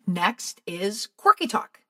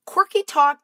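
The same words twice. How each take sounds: First: Said in the usual way. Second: "Quirky" punched high and loud, falling; emphasis on quirky talk. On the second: Shown as a demonstration.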